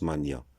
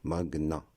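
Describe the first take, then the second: First: "Mania" with a ny sound, as in maniaque. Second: "Magna" said mag-na, g and n separate; hard g plus n. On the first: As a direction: mispronounce Magna as "Mania", ma-nya. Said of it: "C'est une prononciation fausse". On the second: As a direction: say "Magna" with an audible hard g before n. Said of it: "La bonne prononciation". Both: Shown as a demonstration.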